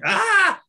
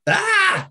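First: Short Brooklyn-accented "Ah", pitched high and louder. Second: Short Scottish-accented "Ah", pitched high and louder. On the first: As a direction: bark out a quick Brooklyn "Ah". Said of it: "with a Brooklyn accent". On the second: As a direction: toss off a quick Scottish "Ah". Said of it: "with a Scottish accent". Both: Shown as a demonstration.

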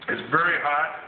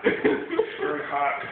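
First: Pained laugh on the words; laughing through the burn. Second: Very slowly, stretched through a pained laugh; slow, drawn out. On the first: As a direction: say it with a hurting chuckle. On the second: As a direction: drag each word out, laughing in pain. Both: Real, not acted.

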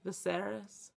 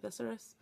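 First: Viserys as vuh-SER-is, unsure; testing "Viserys" with the stress on SER; second hesitant try at "Viserys"; trying another pronunciation. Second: Viserys as VIS-er-is, unsure; testing "Viserys" with the stress up front; hesitant try at "Viserys"; trying a pronunciation. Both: Shown as a demonstration. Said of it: "Is that how you say it?".

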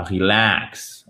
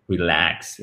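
First: "relax" with a dragged "aah"; mispronounced slow "relax"; overlong mistake. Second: "relax" in a lower voice with a short a; low, compact "relax"; short vowel. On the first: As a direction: stretch "relax" wrongly to "ree-laax". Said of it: "Et pas relax". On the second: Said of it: "Voyelle courte aussi". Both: Shown as a demonstration.

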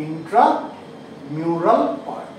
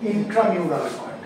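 First: ইন্ট্রামিউরাল split into "intra" and "mural", drawn out; very slow, with a pause inside ইন্ট্রামিউরাল; slow dictation. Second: Said in the usual way. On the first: Shown as a demonstration. Teacher repeats the term for class, slow dictation.

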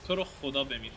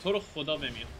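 The two takes are said the same way.

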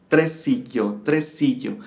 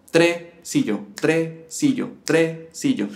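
First: Chanted, "tresillo" in three exactly equal syllables; even syllable chant. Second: "tresillo" with TRE held, then a quick si-llo; uneven syllables, wrong. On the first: Chanted, teacher showing the correct triplet, equal syllables. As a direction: chant tre-si-llo steadily, no syllable longer. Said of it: "tienen que durar exactamente lo mismo". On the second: Teacher showing the uneven mistake, long first syllable. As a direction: chant "tre... sillo" lopsided, first syllable apart. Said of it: "¿Ves a lo que me refería". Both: Shown as a demonstration.

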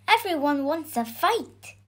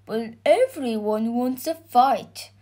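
First: Put-on higher, insistent boy; boy's cried protest. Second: Lightly voiced George, near usual pitch; George's objection. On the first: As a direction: plead with the dragon as the boy. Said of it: "cried the boy". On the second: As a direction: object as the reasonable knight. George answers the boy. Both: A narrator's reading.

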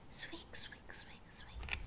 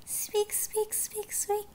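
First: Very soft, voiceless squeaks; whispered mouse squeaks. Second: High-pitched little mouse squeak. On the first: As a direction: whisper it like tiny mice. Mice squeaks, now hushed. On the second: Imitating mice in the story. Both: Acted.

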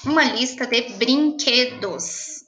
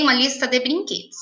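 First: Slow dictation. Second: Said in the usual way. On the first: Shown as a demonstration. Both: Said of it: "Hoje nós vamos fazer uma lista".

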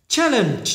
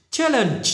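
No difference in how they are said.

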